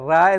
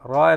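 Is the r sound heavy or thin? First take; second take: thin; heavy. First: A thin r with a flat, open a vowel. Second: A heavy r with a rounded, darker vowel. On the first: The speaker calls it wrong. "റാ എന്ന് പറയരുത്" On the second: The speaker calls it right. "റോ എന്നാണ് പറയേണ്ടത്"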